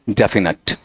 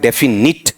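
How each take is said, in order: First: The last syllable sounds like 'nut'. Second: The last syllable sounds like 'nit'. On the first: The speaker calls it right. "नेट भी नहीं, नट" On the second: The speaker calls it wrong. "वो भी क्या है, गलत"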